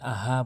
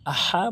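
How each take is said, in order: First: The h is a plain, light breath. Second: The h comes from deep in the throat. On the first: The speaker calls it wrong. "অনেকে ভুল করে আহা বলে" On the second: The speaker calls it right. "হলকের মাঝখান থেকে হা উচ্চারণ করতে হবে"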